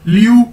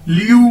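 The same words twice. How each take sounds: No difference in how they are said.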